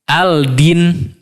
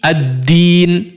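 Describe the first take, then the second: First: A clear L is sounded before the D. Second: The L merges into a doubled D sound. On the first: The speaker calls it wrong. "Tidak dibaca al-din ya, tidak" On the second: The speaker calls it right. "Lamnya melebur ya. Lamnya hilang, tidak terbaca"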